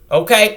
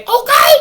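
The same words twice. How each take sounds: First: Said in the usual way. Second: Okay jumps way up and louder; high squealed okay. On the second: Real, not acted. To viewers about free Baker Creek seeds, squealed high okay.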